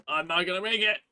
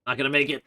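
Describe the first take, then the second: First: Higher, panicky repeat; mock panic. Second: Said in the usual way. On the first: Real, not acted. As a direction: ham up the panic. Racing against nightfall, repeated higher.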